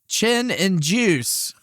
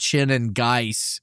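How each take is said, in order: First: The last name sounds like the word juice. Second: The last name sounds like geis, not juice. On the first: The announcer misread the name. The speaker calls it wrong. "they said it wrong" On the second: This is the name's intended pronunciation. The speaker calls it right. "it's obviously supposed to be Chin and Geis"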